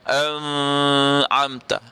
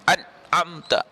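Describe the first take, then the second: First: The n is nasalized and held long. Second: The n has no nasal resonance at all. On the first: "tak boleh bunyi dengan an'amta" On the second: "kalau kita tak bunyi nun itu dengan sifat gunnah pun tak betul juga"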